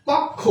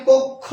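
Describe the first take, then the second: First: কক্ষ with an open "aw" first vowel; common mispronunciation. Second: কক্ষ with a closed "o" first vowel; correct pronunciation. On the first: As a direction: say কক্ষ as "kawk-kho". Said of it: "আমরা ভুল বলি". (কক্ষ-এর প্রথম স্বর খোলা অ) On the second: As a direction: say কক্ষ as "kok-kho". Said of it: "এই শব্দটির উচ্চারণ হচ্ছে". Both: Shown as a demonstration.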